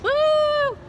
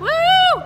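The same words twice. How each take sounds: First: The cheer is fairly quiet. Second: The cheer is loud.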